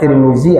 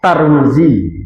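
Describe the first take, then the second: First: The first syllable has the vowel i. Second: The first syllable has the vowel a. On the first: "ada Tirmizi" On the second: "Kalau orang kampung Ambo, ... pakai tar ya"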